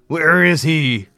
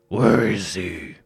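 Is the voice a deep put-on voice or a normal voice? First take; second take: normal; deep put-on. First: It is said in a normal speaking voice. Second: It is said in a deep, gravelly put-on voice.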